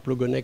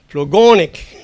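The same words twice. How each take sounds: First: The syllables are said evenly, without word stress. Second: One syllable carries a strong word stress. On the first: The speaker calls it wrong. "c'est pas Plogonec" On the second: The speaker calls it right. "Et si vous n'avez pas l'accent tonique, vous n'êtes pas breton"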